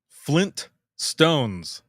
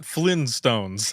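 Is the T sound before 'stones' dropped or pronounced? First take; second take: pronounced; dropped. First: Both T sounds are clearly pronounced. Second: It is said quickly, dropping the T sound. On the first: The speaker calls it right. "Flintstones has two T's" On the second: The speaker calls it wrong.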